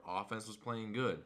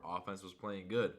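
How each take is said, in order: Both takes have the same delivery.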